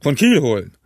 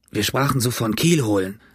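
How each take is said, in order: First: Incredulous echo. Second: Said in the usual way. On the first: A narrator's reading. Innkeeper echoes Morgan's answer, scornfully incredulous. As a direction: throw the words back at him.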